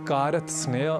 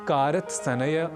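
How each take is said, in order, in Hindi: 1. एक अतिरिक्त स्वर व्यंजन-गुच्छ को तोड़ता है। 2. दो अतिरिक्त स्वर व्यंजन-गुच्छ को तोड़ते हैं। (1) "इसे कारत्सनय, कारत्स्नय आदि न कहकर" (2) "इसे कारत्सनय, कारत्स्नय आदि न कहकर"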